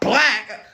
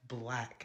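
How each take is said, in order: First: It is said loudly and intensely. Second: It is said calmly and plainly.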